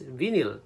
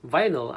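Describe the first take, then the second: First: "vinyl" said as VIN-il, short i; mispronounced vinyl. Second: Said in the usual way. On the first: Shown as a demonstration. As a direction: say "vinyl" to rhyme its first syllable with "win". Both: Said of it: "pronounce vinyl as vinyl".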